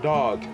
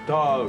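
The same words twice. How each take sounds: First: It is said as the standard word 'dog'. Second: It is said as the slang word 'dawg'. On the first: It means the animal. "One is like dog, D O G" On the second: It is a friendly word for a buddy. "The other is like dog, D A W G"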